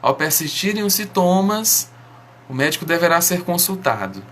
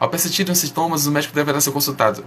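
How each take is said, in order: First: The sentence is spoken slowly and clearly. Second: The sentence is rushed out very quickly. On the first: It is easier to understand. The speaker calls it right. "Você entendeu melhor" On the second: It imitates a medicine advert's hurried disclaimer. The speaker calls it wrong. "Porque foi muito rápido"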